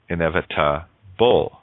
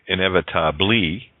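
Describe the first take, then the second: First: The word ends with a 'bull' sound. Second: The word ends with a 'blee' sound. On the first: The speaker calls it right. "You say inevitable" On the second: The speaker calls it wrong. "You don't say inevit inevitably"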